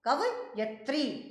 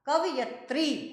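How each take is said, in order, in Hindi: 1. 'i' स्वर 'y' ध्वनि के बाद आता है। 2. 'i' स्वर 'y' ध्वनि के बाद आता है।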